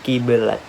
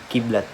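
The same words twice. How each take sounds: First: A vowel separates the two middle consonants. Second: The two middle consonants are said directly together. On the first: The speaker calls it wrong. "bukan kiblat" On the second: The speaker calls it right. "langsung dibunyikan sebagai kiblat"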